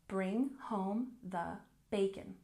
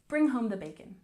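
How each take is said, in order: First: The phrase is said at a slower pace. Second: The phrase is said at a quicker pace.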